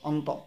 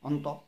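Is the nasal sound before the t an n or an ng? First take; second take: n; n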